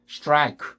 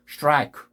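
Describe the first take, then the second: The two takes are said the same way.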